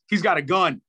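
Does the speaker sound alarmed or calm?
alarmed. The warning is said in an urgent, alarmed tone. The listener understands there is real danger. "Vocal inflection makes all the difference"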